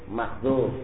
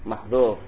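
Both takes have the same delivery.

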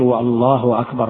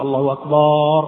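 First: Both words are said clearly without extra lengthening. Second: The vowel in the second word is stretched. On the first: The speaker calls it right. "يعني يكون فصيحا في النطق" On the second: The speaker calls it wrong. "عندما يمد الله أكبر يقول الله أكبر"

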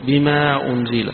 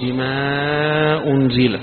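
First: The long vowel is held for two counts. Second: The long vowel is held for four counts. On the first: "يقصر" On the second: "يوسط"

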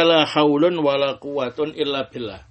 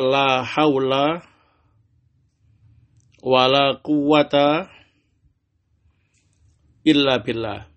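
First: The two nouns end with -un. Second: The two nouns end with a short -a. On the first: The particle la works like laisa or not at all. "isim setelah la sama-sama dibaca rofa" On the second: The particle la governs the nouns like inna. "beramal seperti inna"

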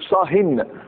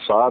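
First: The word ends with an added n sound. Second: The word ends without an added n sound.

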